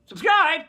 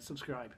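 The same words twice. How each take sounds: First: High, sudden yelled plug; mock-aggressive high shout; loud shout. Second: Low, quiet aside; understated, deep and quiet; offhand. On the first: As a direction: belt it out at the viewers. Louder redo of the plug. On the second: Real, not acted. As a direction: toss it off softly, low in the voice. Mumbled plug before the loud one.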